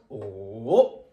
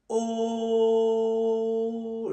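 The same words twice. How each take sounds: First: The pitch dips down then rises again. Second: The pitch stays level and flat. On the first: "Il descend d'abord et puis remonte" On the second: "Il est tout plat"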